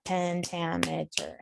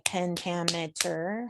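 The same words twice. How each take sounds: First: "Pentameter" said slowly, syllable by syllable, softer; broken into syllables. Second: Said in the usual way. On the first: Shown as a demonstration. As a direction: break "Pentameter" into slow, separate syllables. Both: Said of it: "breaking down a word".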